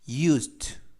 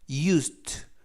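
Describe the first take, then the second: First: The d and t sounds blend into one. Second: The same.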